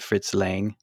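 The name has an American English pronunciation. "Americans always just say Fritz Lang"

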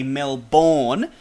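It is said with an American pronunciation. This is how outsiders say the name. The speaker calls it wrong. "Americans, they like to say Melbourne"

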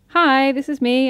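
It is said smiling, with lively pitch.

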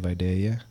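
The name is said in a Southern Georgia accent.

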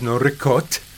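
The final vowel of ricotta is dropped.

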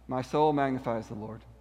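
It is said in a flat, unemotional tone. The praise lacks real feeling. The speaker calls it wrong. "imagine if we tried to attribute to Mary the kind of emotional tone that sometimes we have"

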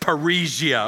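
It is said with an American accent. "the American way is parisia"

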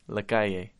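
It is said with a Mexican Spanish accent.

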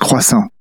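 The word has a French pronunciation. This is how the word really sounds. "Even though it's croissant"

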